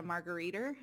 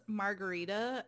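First: "margariter" ending in an R sound; Baltimore-style "margariter" with hard final R; added final R. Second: Said in the usual way. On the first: Retold or imitated. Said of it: "as a margariter". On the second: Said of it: "he would always pronounce margarita as".

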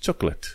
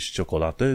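First: "chocolate" as "chok-let", two syllables; correct English chocolate. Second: "ciocolate" as "cho-ko-la-te", every vowel; wrong, as spelt. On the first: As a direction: drop the middle O in "chocolate". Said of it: "zici chocolate". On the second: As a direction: sound all four syllables of "ciocolate". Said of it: "Nu zici ciocolate". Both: Shown as a demonstration.

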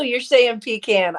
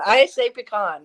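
First: "pecan" said PEE-can, mimicking the co-host; imitated pronunciation. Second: "pecan" said puh-KAHN; own pronunciation. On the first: Co-host echoes how the other says the nut, "pecan" as PEE-can. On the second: Co-host corrects the other with their own version, "pecan" as puh-KAHN. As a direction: stress the second syllable of "pecan", with an open AH. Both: Shown as a demonstration.

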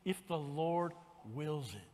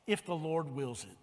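First: Soft, low and slow; a hushed, humble If the Lord wills it. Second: Quiet, low and falling; a quiet, humble if the Lord wills it; softly stated. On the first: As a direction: lay it down gently and slowly. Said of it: "When you're talking about things". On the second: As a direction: say it gently, like a prayer. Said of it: "we need to go to the Lord with". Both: Shown as a demonstration.

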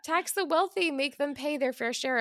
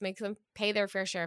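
First: High, loud rallying shout, easing off; imitated shouting, pitched well up; mock shouting. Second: Said in the usual way. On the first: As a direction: shout it like an exasperated demand. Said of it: "Democrats have been shouting". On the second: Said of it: "It's not even, like, an overtax".

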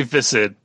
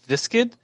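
First: Visid said with a plain s, no k; Visid, the c silent as in viscid said "VISS-id"; Visid with soft s. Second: Viskid with a k after the s; Viskid, a hard k sound mid-word. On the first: Shown as a demonstration. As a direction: say Visid with only an s sound mid-word. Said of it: "I say Visid". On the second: Retold or imitated. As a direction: say Viskid as "VISS-kid". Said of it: "Patrick said it Viskid".

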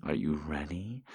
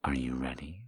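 First: Said in the usual way. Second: Whisper. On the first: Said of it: "voiced take". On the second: Acted. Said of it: "whispered take".

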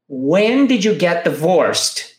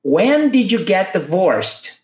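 First: Slow, even model again. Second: Slow, even model for repetition; slow it down for learners. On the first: Teacher repeating the model for students, slow. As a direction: repeat it slowly. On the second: Teacher leading students to repeat, slow. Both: Shown as a demonstration. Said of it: "Vamos repetir?".

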